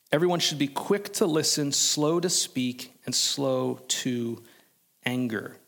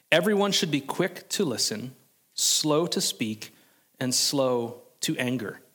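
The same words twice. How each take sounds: No difference in how they are said.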